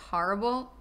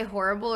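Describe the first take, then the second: First: "horrible" with an open "har" first vowel; "horrible" starting like "hah"; Jersey horrible pronunciation. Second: "horrible" with a round "hor" first vowel; "horrible" starting like "whore"; first horrible pronunciation. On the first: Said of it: "Do I say horrible or horrible?". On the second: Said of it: "Do I say horrible or". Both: Shown as a demonstration.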